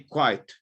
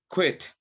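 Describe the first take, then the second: First: The vowel is a long eye sound. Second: The vowel is a short i sound. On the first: The speaker calls it wrong. "You say quiet or quake" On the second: The speaker calls it right. "That's how you say it"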